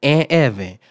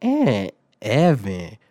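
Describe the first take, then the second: First: Loud, emphatic name call. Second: Very slow, stretched-out disbelieving repeat; incredulous echo. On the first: Assistant principal summoning second suspect, calling out. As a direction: announce the second name loudly to the room. Official calls out the narrator. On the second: Student echoing own name after being accused, incredulous echo. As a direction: draw out each word as if you misheard. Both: Retold or imitated.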